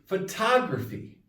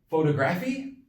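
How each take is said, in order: First: The stress is on the third-to-last syllable. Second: The stress is on the second-to-last syllable. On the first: The speaker calls it right. "It's the third from last" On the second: The speaker calls it wrong. "So is it photography? No"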